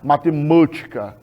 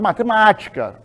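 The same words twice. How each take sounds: First: The stressed A is closed and muffled. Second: The stressed A is very open and resonant. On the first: The speaker calls it wrong. "ninguém fala matemática" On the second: The speaker calls it right. "com o A bem aberto e sonoro"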